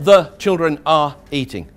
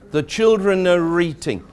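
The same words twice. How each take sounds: First: 'Are' is said as a separate full word. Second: 'Are' runs into 'children' as one sound. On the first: The speaker calls it wrong. "not the children are eating" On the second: The speaker calls it right. "It's all one sound"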